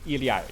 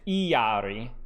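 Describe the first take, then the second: First: The name is said with a native Quechua pronunciation. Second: The name is said with a Spanish pronunciation. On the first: "but it's technically Iliari" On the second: "if it's uh, Spanish, it's Iari"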